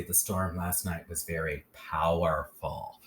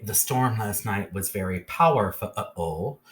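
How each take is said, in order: First: Said in the usual way. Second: "powerful" ending in a sounded-out "fa-a-ol"; stilted "power-fuh-uhl", last syllable stretched; over-literal short U. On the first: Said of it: "We would say". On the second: Shown as a demonstration. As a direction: break "powerful" up, giving the U a full short uh. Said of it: "We wouldn't say".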